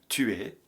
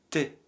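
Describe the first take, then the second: First: Both words are said in full, separately. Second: The words merge into one short syllable.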